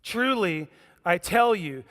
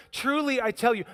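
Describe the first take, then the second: First: Said in the usual way. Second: "Truly" lifted high and pressed; cutting off an interruption, "Truly" pitched up; emphatic repeat. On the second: Shown as a demonstration. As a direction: lean hard on "Truly, I tell you". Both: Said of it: "Look how it's written".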